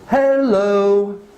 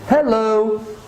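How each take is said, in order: First: It is said slowly. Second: It is said at normal speed.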